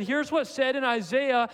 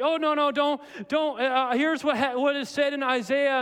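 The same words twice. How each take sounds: First: Said in the usual way. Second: Higher-pitched, stumbling self-correction; mock confused Mark. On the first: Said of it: "No, he said". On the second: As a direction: act out a flustered backtrack, lightly hammed. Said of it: "It wasn't like he was like".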